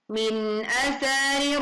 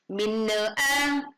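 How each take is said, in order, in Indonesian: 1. Huruf n diucapkan dengan jelas sebelum vokal. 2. Huruf n memantul dan menyambung ke vokal. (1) "dibaca jelas" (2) "jangan sampai dibaca menjadi minna'a"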